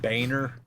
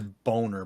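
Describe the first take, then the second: First: The first syllable sounds like 'bay'. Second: The first syllable sounds like 'bone'. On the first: This is how the family says it. "they they would pronounce it Boehner" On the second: This is how the spelling reads. "It like clearly says Boner"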